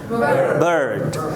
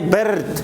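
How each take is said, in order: First: The vowel is the 'er' sound. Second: The vowel is not the 'er' sound. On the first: The speaker calls it right. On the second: The speaker calls it wrong. "We do not say bird. It's wrong"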